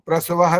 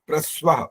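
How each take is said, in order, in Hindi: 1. 's' ध्वनि पूरे अक्षर के रूप में बोली जाती है। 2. 's' ध्वनि संयुक्त अक्षर में संक्षिप्त कर दी जाती है। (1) "तो प्रस्वाह नहीं बोलना, ये गलत हो जाएगा" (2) "स जो है संक्षिप्त बोलने का तरीका होता है"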